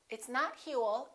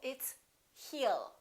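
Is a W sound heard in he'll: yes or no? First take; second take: yes; no. First: A W sound is heard after he. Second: No W sound is heard after he. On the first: The speaker calls it wrong. "put a little W" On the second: The speaker calls it right. "don't pronounce that W"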